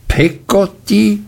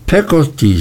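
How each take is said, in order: First: "Peggotty?" thrown back much higher in outrage; "Peggotty?" repeated by the aunt with an indignant high rise. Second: Said in the usual way. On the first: A narrator's reading. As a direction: echo "Peggotty?" as if the name were scandalous. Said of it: "wiederholte Miss Betsy entrüstet". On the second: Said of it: "sagte meine Mutter".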